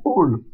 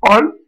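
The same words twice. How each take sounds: First: "ol" with closed O, as in eau; drawn-out "ol" with rounded, tight lips. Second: "ol" with open O, as in créole; drawn-out "ol" with a wide open vowel. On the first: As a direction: say "ol" with a narrow rounded vowel. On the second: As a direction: say "ol" with the mouth more open. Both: Shown as a demonstration. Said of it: "Au son ouvert ou fermé".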